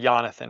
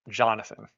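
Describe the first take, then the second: First: The name is said with a Swedish pronunciation. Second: The name is said with an English pronunciation.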